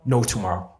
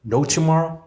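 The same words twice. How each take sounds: First: Said in the usual way. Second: NO TOMORROW lifted high and loud; louder repeat. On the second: Retold or imitated. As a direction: punch "No tomorrow" up higher and louder.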